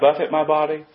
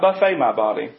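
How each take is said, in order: First: Buffet is stressed first and ends in 'it'. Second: Buffet is stressed last and ends in 'ay'. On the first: It means to strike or beat the body. The speaker calls it right. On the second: It means to treat the body to a spread of food. The speaker calls it wrong.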